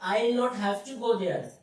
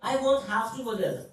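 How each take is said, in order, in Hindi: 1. 'will not' पूरा बोला जाता है, धीरे। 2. 'will not' को 'won't' में संक्षिप्त किया जाता है, तेज़ी से।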